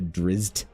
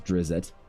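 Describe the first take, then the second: First: It ends in a tight zt cluster. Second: A short vowel separates the z and t.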